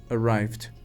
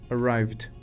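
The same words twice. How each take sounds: Both takes have the same delivery.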